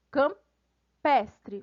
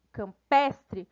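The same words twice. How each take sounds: First: "Campestre" broken in two, cam... pestre; split word. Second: Said in the usual way. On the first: Shown as a demonstration. Teacher showing an added suffix, "Campestre" split after cam. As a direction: pause after the first part of "Campestre". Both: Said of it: "Foi acrescentada um sufixo".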